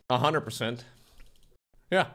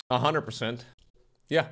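No difference in how they are said.

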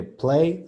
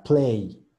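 First: First "play" held on E with barely any I; correct pronunciation. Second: "play" ending in a full I glide; wrong pronunciation. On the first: Teacher contrasts two versions for students, the correct E-heavy "play". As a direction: say "play" open, without the ee glide. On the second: Teacher contrasts two versions for students, the wrong glided "play". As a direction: close "play" on a clear ee. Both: Shown as a demonstration. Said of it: "Suena muy diferente play a play".

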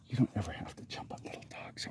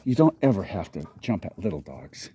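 First: Whispered to a dog. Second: Said in the usual way. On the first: Real, not acted. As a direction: breathe it as a whisper. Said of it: "repeated as whisper". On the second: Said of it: "repeat whispered".

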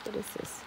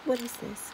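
First: Much softer, breathy whispered question; soft curious whisper. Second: Said in the usual way. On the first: Real, not acted. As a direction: hush it to yourself in wonder.

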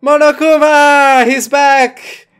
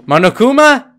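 First: Loud, high cry of excitement; excited shout. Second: Surprised, higher and louder, rising sharply; startled question. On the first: Player greets Monokuma's return, excited shout. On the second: Player spots Monokuma in the game, startled question. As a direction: call the name as a startled question. Player reacts to character appearing. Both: Real, not acted.

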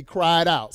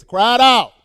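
First: Said in the usual way. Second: High, loud preacher's cry; sudden raised shout on the scripture words. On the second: Shown as a demonstration. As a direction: cry it out forcefully to the congregation. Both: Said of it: "See, there it is".

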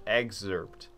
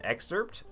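First: Excerpt. with a g sound, eg-zerpt; corrected pronunciation. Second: Excerpt? with a k sound, ek-serpt; mispronounced. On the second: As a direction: say excerpt? as ek-serpt with a question rise. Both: Shown as a demonstration.

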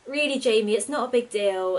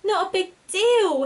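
First: Weary, sighing brush-off; sighed. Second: Much higher, louder and slow squeak of disbelief. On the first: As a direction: wave it away with a tired sigh. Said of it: "Alina sighed". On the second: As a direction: squeak it out in shocked indignation. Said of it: "Hetty squeaked". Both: A narrator's reading.

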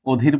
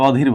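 First: "অধীর" said as "odhir", closed o first; first vowel as o. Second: "অধীর" with an open aw at the start; open first vowel. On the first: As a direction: round the opening vowel of "অধীর" into o. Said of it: "ও এর মতো উচ্চারণ করছি". ("অধীর"-এর অ ও-এর মতো) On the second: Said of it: "কিন্তু অধীর বলি না". ("অধীর"-এর অ বিবৃত উচ্চারণে) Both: Shown as a demonstration.

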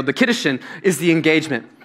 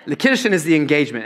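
First: Said in the usual way. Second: Quick, rushed retake; said quicker. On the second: Shown as a demonstration. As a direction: rattle off "The Kiddushin is the engagement" fast. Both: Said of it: "I think you have to say it quicker than that".

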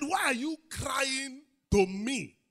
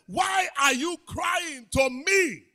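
First: Slow, lifted rebuke of God; God's rebuke. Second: Slow, loud and high shout; God's thundering rebuke. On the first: God rebuking Moses at the Red Sea, slow and firm. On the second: God shouting at Moses at the Red Sea, slow and thundering. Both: Retold or imitated. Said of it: "He said".

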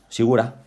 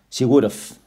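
First: Would have shrunk to "WOOD-uh"; reduced pronunciation. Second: Would have linked as "WOOD-uv"; contracted form. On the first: Teacher contrasting two spoken forms, would have as woulda. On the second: Teacher contrasting two spoken forms, would have as would've. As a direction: keep a final V in would have, drop the H. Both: Shown as a demonstration. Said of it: "en realidad pronuncian she woulda".

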